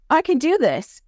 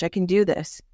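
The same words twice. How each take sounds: First: Excited realization. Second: Said in the usual way. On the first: Acted. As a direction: shout it as the kid finally gets it. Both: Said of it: "they're like".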